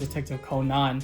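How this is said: The name is said with Japanese pronunciation.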